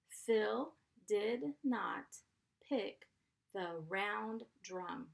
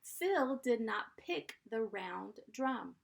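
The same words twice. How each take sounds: First: Slow, each chunk split with pauses; teacher reading for spelling practice; slow dictation. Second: Said in the usual way. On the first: Shown as a demonstration. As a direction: dictate it slowly in parts. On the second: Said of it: "Number three".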